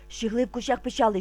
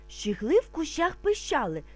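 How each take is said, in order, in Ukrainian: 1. Сказано дуже швидко. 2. Сказано трохи швидше. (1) "А тепер дуже швидко" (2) "А тепер трошки швидше"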